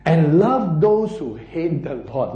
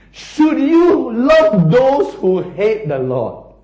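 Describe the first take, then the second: First: Said in the usual way. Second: "Should you love those" loud, high and drawn out; emphatic rhetorical question. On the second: Real, not acted. Preacher repeats verse for the congregation, stressing "Should you love". Now look at this one.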